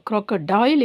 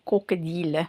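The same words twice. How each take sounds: First: The word ends with an English dial sound. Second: The word ends with a French deel sound. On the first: "இங்கிலீஷில்" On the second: "ஃப்ரெஞ்சில் en français"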